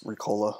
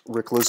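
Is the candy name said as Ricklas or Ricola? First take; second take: Ricola; Ricklas. First: The name is said as 'Ricola'. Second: The name is said as 'Ricklas'. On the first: The speaker calls it right. "It's Ricola, obviously" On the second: The speaker calls it wrong. "I'm saying that wrong on purpose"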